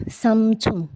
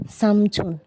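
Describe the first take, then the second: No difference in how they are said.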